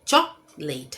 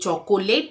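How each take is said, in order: First: The word is said with two syllables. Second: The word is said with three syllables. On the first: The speaker calls it right. "चॉक और लेट" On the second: The speaker calls it wrong. "ये चॉकोलेट नहीं है"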